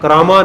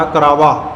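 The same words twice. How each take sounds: First: ਕਰਾਵਾਂ with nasal "maan" ending; ਕਰਾਵਾਂ like "karaamaan"; wrong nasal ending. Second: ਕਰਾਵਾ ending in oral "vaa"; ਕਰਾਵਾ with pure final aa; without nasal. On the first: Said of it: "ਨਹੀਂ". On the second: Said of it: "ਕਰਾਵਾਂ ਨਹੀਂ". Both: Shown as a demonstration.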